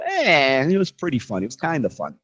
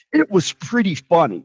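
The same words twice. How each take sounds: First: Half-hearted verdict, dropping in pitch; lukewarm. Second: "pretty" pushed high as an intensifier; overdone emphasis on "pretty", as if it meant very; stress on pretty. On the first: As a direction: shrug it off as only so-so. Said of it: "Does work". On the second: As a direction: lean hard on "pretty", pitched up. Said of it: "Doesn't really work". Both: Shown as a demonstration.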